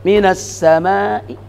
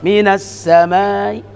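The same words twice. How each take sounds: Both takes have the same delivery.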